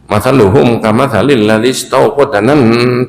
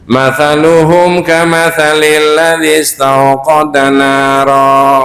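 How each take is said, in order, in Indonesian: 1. Pakai bunyi s dan berakhir di nan. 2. Pakai bunyi th dan berakhir di nara. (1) "Orang baca Quran gini boleh nggak" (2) "Kalau dibaca adik-adik yang hafal"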